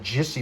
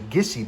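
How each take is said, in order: First: The word begins with a soft J sound. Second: The word begins with a hard G sound. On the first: The speaker calls it wrong. "like I was pronouncing it with a J" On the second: The speaker calls it right. "it's pronounced with a hard G"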